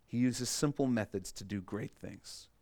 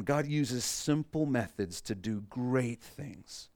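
First: Said in the usual way. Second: Slow, deliberate, every word weighed; slow dictation. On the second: Shown as a demonstration. Pastor dictating a key line to the congregation, slow and deliberate. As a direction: spell it out so they can write it. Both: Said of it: "So write this down".

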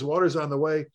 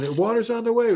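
First: Said in the usual way. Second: Pitched up, mock yell over the radio; raised retold shout. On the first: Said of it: "We kept getting this". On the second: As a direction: call it out like a frantic radio order. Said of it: "he's yelling".

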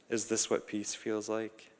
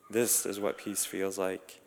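First: Softly asked, wondering if this is peace; quiet wondering. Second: Slow, settled statement of peace; calm realization. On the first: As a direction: ask it half to yourself, hushed. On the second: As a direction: let it land slowly, at rest. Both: A narrator's reading. Wondering question, then calm answer.

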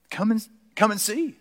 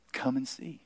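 First: Lifted invitation. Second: Soft, hushed come and see; a quiet, inviting come and see; hushed invitation. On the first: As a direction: Come and see lifted higher and brighter. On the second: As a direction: draw them in quietly. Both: Shown as a demonstration.

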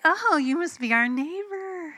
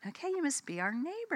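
First: High, loud fake-friendly greeting with attitude; exaggerated high singsong, attitude showing through; retold attitude. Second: High, soft polite greeting; retold self-corrected greeting, high and quiet; attitude held in check. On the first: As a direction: greet them loudly, high-pitched and full of attitude. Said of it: "I can feel my attitude". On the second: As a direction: rein in the attitude and greet softly. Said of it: "just check it".

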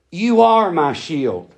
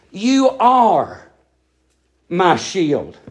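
First: Are pressed hard against give; emphatic you ARE my shield; stress on ARE. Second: You are, a pause, then my shield dropped low; split with pause. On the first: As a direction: hit are, then settle on my shield. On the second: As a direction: break the phrase after are. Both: Shown as a demonstration. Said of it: "You didn't give me a shield".

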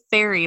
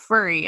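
First: "fairy" with an open air vowel; intended "fairy". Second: "furry" with an er vowel; "fairy" coming out "furry". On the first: Co-host showing what the baker meant, "fairy" with the air sound. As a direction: say "fairy" as in fair. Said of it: "she kept trying to say fairy". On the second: Co-host showing how the baker's word came out, "furry" with the er sound. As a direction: say "furry" as in fur. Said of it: "it kept coming out furry". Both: Shown as a demonstration.

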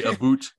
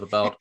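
First: "a boot" with an oo vowel, mock Canadian; Canadian "about". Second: Said in the usual way. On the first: Shown as a demonstration. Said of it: "you gotta say a boot". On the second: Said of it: "instead of about".

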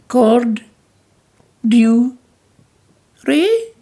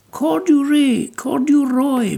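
First: "cord- dew- ray" broken into slow separate syllables, rising high at the end; "cord- dew- ray" said haltingly in three pieces, ending in a high question; childlike mispronunciation. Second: "Corduroy" said whole and smooth with a falling tune, then repeated slowly; "Corduroy" spoken fluently as one word, like a kind teacher; gentle correction. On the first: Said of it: "Corduroy, corduroy, my dear". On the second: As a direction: model "corduroy" correctly for her, patiently. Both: Acted.

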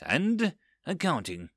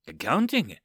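First: Said in the usual way. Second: Puzzled disbelief with a swooping pitch; incredulous echo. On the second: A narrator's reading. Overseer questions subordinate's dangerous pastime, incredulous. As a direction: throw ACCOUNTING back as a baffled question.

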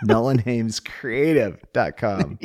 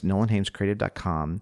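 First: Slowed right down, each word spelled out; slow and clear. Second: Quick, run-together plug; rushed. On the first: Shown as a demonstration. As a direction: say the address slowly for listeners. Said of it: "Slow down". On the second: Real, not acted. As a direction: rattle off the web address. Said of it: "Sorry, too fast".

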